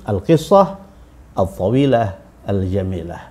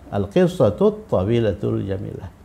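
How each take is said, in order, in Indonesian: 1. Setiap kata diucapkan terpisah, akhirannya terputus. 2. Kata-katanya disambung, akhirannya saling terhubung. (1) "kalau kita baca terputus-putus" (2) "kalau kita baca bersambung"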